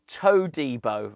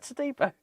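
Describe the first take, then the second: First: Todibo said as "toe-DEE-bo"; nickname pun. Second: Said in the usual way. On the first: Retold or imitated. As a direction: stretch the first syllable of Todibo into a clear "toe". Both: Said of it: "Someone called him Todibo".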